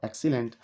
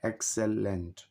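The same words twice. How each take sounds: First: Said in the usual way. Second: "excellent" split into three parts, ex, cel, lent; syllable by syllable. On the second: Shown as a demonstration. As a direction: count out "excellent" as ex-cel-lent with small gaps. ("Excellent" को तीन हिस्सों में, x-cell-lent, तोड़कर बोलें) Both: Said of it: "इसमें तीन syllable हैं".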